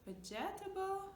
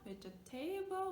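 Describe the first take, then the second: No difference in how they are said.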